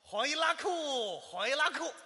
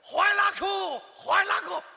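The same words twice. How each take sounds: First: It sounds only mildly pleased. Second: It sounds very happy and excited.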